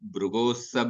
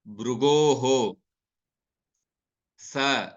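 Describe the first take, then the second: First: The final h-sound is dropped and the words run together. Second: The final h-sound is clearly sounded before a pause. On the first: The verse is recited without unnecessary breaks. "at that time I will not be distinctly pronouncing that visarga" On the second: Each word is said separately to explain the verse. "So bhrugoho, like that I distinctly pronounce. So because I am giving a gap between bhrugoho and then and sa"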